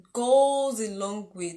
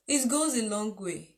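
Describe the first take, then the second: First: "goes a long way" slowed right down and said louder; slow emphatic repeat. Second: Said in the usual way. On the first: Shown as a demonstration. Preacher drives the point home to the congregation, slow and emphatic. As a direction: lean on "goes a long way" so it sinks in.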